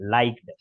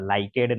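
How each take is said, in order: First: The ending is a plain t sound, one syllable. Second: The ending adds an extra 'ed' syllable. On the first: The speaker calls it right. "अच्छा किया लाइक्ड बोला" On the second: The speaker calls it wrong. "लाइकेड नहीं बोला"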